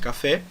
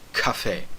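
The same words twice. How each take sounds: First: The first consonant is plain, without a breath. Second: The first consonant has a puff of breath. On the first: "O kuf era o som do, do C, que nós temos, por exemplo, em café" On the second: "como se fosse um americano falando café"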